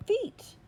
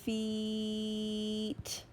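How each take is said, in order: First: "feet" blended quick, high and bright; said fast. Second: "Feet" drawn out over the vowel; stretched sounds. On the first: Teacher to class, cheering the blended "feet". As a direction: pop "feet" out as one quick word. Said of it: "Say it fast". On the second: Teacher to class, stretching "Feet" sound by sound. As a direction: hold each sound of "Feet" apart, slowly. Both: Shown as a demonstration.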